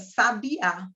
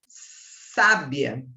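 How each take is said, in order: First: The stress is on the last syllable. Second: The stress is on the first syllable. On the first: It names a kind of bird. "a sílaba tônica é o a" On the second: It means 'wise'. "Qual é a sílaba tônica? É o sa"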